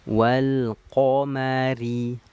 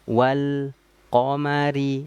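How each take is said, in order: First: The reading flows on without any stop. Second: The reading stops briefly before continuing. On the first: The speaker calls it right. "Harus bersambung" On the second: The speaker calls it wrong. "jangan bacanya gini ... dia terhenti sejenak"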